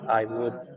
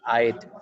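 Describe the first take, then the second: First: Both words are said fully and separately. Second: The two words are merged into one syllable.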